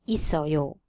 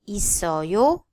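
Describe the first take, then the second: First: The pitch falls at the end. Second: The pitch rises at the end. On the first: It states that someone has something. "Then you can hear the intonation is different" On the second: It asks whether someone has something. "a rising intonation"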